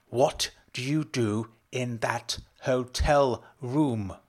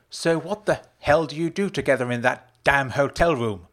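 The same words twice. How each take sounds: First: Slow, word-by-word angry demand; contained shout, heavily drawn out. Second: Loud, high angry demand; heated, raised-voice interrogation; snapped. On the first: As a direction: space out every word in fury. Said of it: "Rose shouted again". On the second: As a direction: snap the question out. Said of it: "Rose snapped". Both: A narrator's reading.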